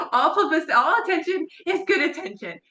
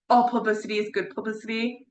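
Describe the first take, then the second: First: 1 laughing emphasis. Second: Said in the usual way. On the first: Shown as a demonstration. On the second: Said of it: "the phrase of, like".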